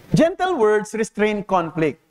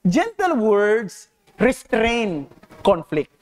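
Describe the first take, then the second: First: Said in the usual way. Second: Slow, deliberate: "gentle words restrain conflict"; measured preacher's emphasis; slow deliberate reading. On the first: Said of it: "Kasi gentle words restrain conflict". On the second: Shown as a demonstration. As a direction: lay each word down slowly.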